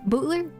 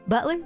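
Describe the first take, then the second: First: The word is said with a country vowel. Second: The word is said with a plain vowel. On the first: "Bootler sounds more like it'd be more country" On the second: "So I say like butler"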